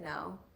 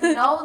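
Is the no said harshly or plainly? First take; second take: plainly; harshly. First: It is said plainly and matter-of-factly. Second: It is said in a harsh, offended way.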